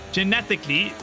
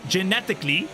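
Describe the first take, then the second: No difference in how they are said.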